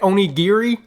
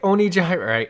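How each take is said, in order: First: The word ends with a 'ree' sound. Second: The word ends with a 'rai' sound. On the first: The speaker calls it right. "Isn't it Onigiri?" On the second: The speaker calls it wrong. "I'm just questioning the pronunciation"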